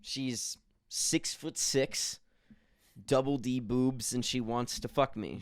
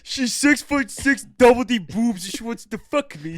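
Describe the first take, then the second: First: Slow, deliberate listing; slow boast. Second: High, loud mock ghost woman. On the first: Shown as a demonstration. Host slowly describing his imaginary ghost lover. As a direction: spell it out slowly like a proud announcement. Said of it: "first take, slow boast". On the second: Friend voicing the imaginary ghost woman, high and loud. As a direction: squeal it as the ghost bitch. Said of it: "That's what the ghost bitch said".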